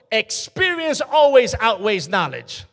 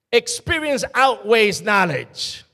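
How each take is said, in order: First: Drawn out and loud, leaning on "always"; slow emphatic point. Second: Slow and loud, weight on "outweighs"; slow emphatic repeat. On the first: Preacher stressing "always" to the congregation. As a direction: hammer home "always" slowly. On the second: Preacher repeating the point, stressing "outweighs". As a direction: press down hard on "outweighs". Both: Acted.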